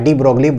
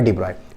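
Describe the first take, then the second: First: The surname is said with g and l sounds. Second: The surname is said without g or l sounds. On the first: It is read the way it is spelled. The speaker calls it wrong. "Spelling wise अगर पढ़ा जाए" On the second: It is the real pronunciation of the name. The speaker calls it right. "Real नाम जो pronunciation है ना वो है डी ब्रॉय"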